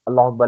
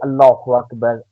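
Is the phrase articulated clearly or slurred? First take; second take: slurred; clearly. First: The sounds are rushed and slurred together. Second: Every sound is articulated clearly and fully. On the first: The speaker calls it wrong. "हम अल्लाह का नाम भी सही अंदाज़ में नहीं लेते" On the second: The speaker calls it right. "इस तरीके से प्रोनाउंस करें कि तलफ़्फ़ुज़ हो"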